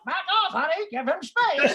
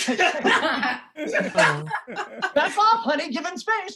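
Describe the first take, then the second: First: Parrot mimicking. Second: Higher, louder mock-nagging wife; imitating the wife telling him to back off; wife snapping at husband to back off, mock nag. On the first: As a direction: parrot squawking the wife's nag back. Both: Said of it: "starts imitating my wife".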